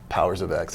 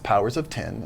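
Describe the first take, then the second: First: The last word is said as the letter X. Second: The last word is said as the number ten. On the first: The speaker calls it wrong. "everybody's been saying" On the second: The speaker calls it right. "I have to make sure I say that correctly"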